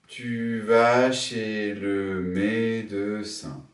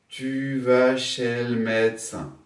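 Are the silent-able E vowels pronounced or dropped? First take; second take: pronounced; dropped. First: Every E is pronounced, giving seven syllables. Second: Two E vowels are dropped, giving five syllables. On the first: "Sept syllabes" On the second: "Cinq syllabes. Deux tombes"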